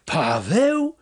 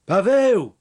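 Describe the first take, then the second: First: High, drawn-out cry rising sharply; amazed question, swooping upward; astonished yell. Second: Loud, higher call of a name, falling at the end; raised-voice summons. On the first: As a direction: yell the name in disbelief. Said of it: "wrzasnął". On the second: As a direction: call after someone walking off. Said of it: "zawołała go". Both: A narrator's reading.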